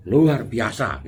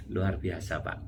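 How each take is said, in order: First: Belts out luar biasa loudly and proudly; loud boast. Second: Said in the usual way. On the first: Retold or imitated. A friend answering how are you, loud and proud. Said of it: "gitu ya ngomongnya". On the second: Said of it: "Kalau dia ngomongnya".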